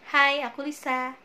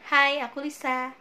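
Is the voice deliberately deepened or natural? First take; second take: natural; natural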